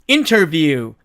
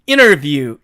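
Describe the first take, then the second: First: The t sound after n is clearly pronounced. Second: The t sound after n is dropped. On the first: "사전식 발음은 interview" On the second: "트가 사라지니까"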